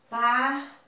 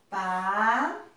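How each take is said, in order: First: Paraguai in three short steps, pa, ra, guai; sílaba por sílaba. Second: Paraguai broken up with long pauses, each syllable stretched; separado em sílabas. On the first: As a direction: say Paraguai with small breaks between syllables. (Paraguai dito em sílabas, com pausas curtas) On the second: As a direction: draw out pa, ra and guai in Paraguai, pausing widely. (Paraguai bem separado, sílabas alongadas) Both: Shown as a demonstration. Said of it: "Vamos separar?".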